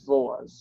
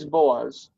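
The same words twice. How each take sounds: First: The name begins with a v sound. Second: The name begins with a b sound. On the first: The vowel sound before it changes the first sound. "here it's specifically Boaz" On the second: This is the name's usual form. "The name is Boaz, and nobody would yell at you if you said Boaz"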